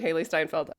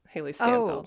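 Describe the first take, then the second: First: The surname's first syllable sounds like 'stine'. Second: The surname's first syllable sounds like 'stan'. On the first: The speaker calls it right. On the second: The speaker calls it wrong. "I repeatedly mispronounced Haley Steinfeld's name. I kept calling her Stanfeld"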